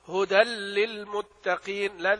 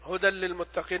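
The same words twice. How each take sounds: First: The doubled L is held a little longer. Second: The doubled L is said quickly, barely held. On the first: The speaker calls it right. "لا تخطف الإدغام ومكن الإدغام كويس ... لازم يتلبث فيه قليلا" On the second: The speaker calls it wrong. "بعض الناس يقرؤون هذا النوع بدون تشديد كافي، يقول هدى للمتقين، هدى للمتقين هكذا"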